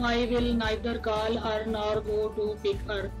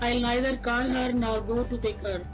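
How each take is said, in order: First: It is said with a typical Punjabi accent. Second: It is said in a neutral accent, contracted. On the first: The speaker calls it wrong. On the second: The speaker calls it right.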